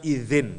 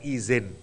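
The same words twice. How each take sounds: First: The word begins with a soft th-like dh sound. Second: The word begins with a plain buzzing z sound. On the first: The speaker calls it right. "Mestinya izin" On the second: The speaker calls it wrong. "bukan izin ya"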